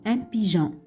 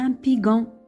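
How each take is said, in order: First: The g is soft, like the s in measure. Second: The g is hard, like the g in go. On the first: The speaker calls it right. "on a rajouté le E, c'est pour ça qu'on a prononcé un pigeon" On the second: The speaker calls it wrong. "Si on n'a pas rajouté le E, ça sera un pigon"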